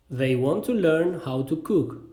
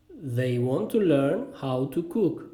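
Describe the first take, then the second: First: Said in the usual way. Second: Slow, careful model sentence; slow repeat. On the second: Shown as a demonstration. Teacher repeats the cooking sentence for learners, slowly. Phrase drill, slower repeat.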